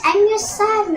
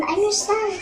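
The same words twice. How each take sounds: First: High and loud, full force on the plea; desperate cry. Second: Fading plea. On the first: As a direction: shout it after her with everything. Son cries out to mother. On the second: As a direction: say it again as the voice gives out. Repeated, less force. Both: Acted.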